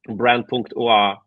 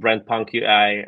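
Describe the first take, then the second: First: The name is said in a non-English way. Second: The name is said in an English way.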